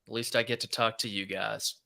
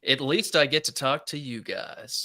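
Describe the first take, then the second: First: The voice sounds flat and unenthusiastic. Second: The voice sounds lively and enthusiastic. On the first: The speaker calls it wrong. "You didn't sound super excited about that" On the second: The speaker calls it right. "That was much better"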